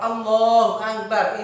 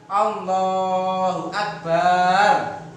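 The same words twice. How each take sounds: First: The vowel after b in Akbar is short. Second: The vowel after b in Akbar is long. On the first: The speaker calls it right. "ini artinya Allah Maha Besar" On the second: The speaker calls it wrong. "baknya tidak boleh dibaca panjang"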